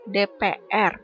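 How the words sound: The letters are said with Indonesian letter names. The speaker calls it right. "Ini sebagai contoh ya"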